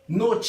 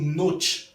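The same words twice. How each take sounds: First: Every letter is sounded, including the final vowel. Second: The final vowel is left silent. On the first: The speaker calls it right. "Tout mot prononcé en espagnol. Toutes lettres" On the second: The speaker calls it wrong. "ou pas dire noche"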